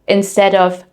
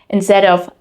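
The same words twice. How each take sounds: The two takes are said the same way.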